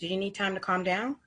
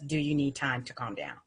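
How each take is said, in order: First: Soft rising question. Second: Soft question. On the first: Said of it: "you know". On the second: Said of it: "another sentence". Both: Shown as a demonstration.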